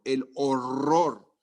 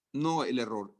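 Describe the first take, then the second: First: El horror drawn out very slowly; el horror said slowly with weight; stressing horror. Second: Said in the usual way. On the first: Shown as a demonstration. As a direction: lean on horror, dragging every sound.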